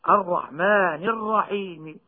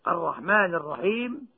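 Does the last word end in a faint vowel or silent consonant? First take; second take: faint vowel; silent consonant. First: A faint trace of the final vowel is heard. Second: The final consonant is fully silent, with no vowel. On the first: "بالروم مع المد بمقدار حركتين كالوصل" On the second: "هذه الثلاثة بالسكون المجرد"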